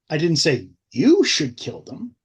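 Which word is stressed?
you. The word 'you' is stressed.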